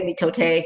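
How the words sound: The word is said with a Spanish pronunciation. "Spanish way is mitote. So I'm being fancy"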